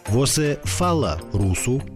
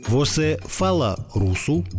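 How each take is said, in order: Both takes have the same delivery.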